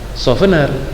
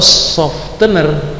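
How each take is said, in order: First: The t sound in the middle is left out. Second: The t sound in the middle is pronounced. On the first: The speaker calls it right. "kalau dihilangkan softener" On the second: The speaker calls it wrong. "Ini juga salah kalau softener"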